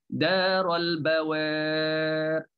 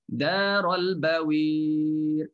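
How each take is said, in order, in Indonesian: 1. Vokal sebelum r hanya sedikit condong. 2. Vokal sebelum r condong kuat. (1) "Bunyinya taklid macam tu" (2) "Kalau imalah"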